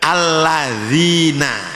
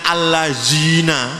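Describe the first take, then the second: First: The middle consonant is a soft 'th'-like sound. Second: The middle consonant is a plain 'z' sound. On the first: The speaker calls it right. "Alladzina itu begitu" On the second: The speaker calls it wrong. "Jangan allazina, ah, bahaya"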